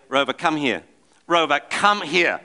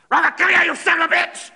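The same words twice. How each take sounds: First: Mildly raised calling across the park; calling the dog. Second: Much higher, louder imitated yell at the dog; mock screaming. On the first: Retold or imitated. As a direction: call the dog, still fairly patient. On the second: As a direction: lose your temper calling the dog. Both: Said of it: "screaming like that".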